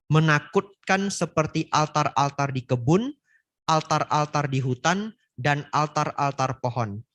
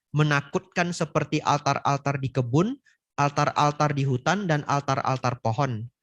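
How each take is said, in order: The two takes are said the same way.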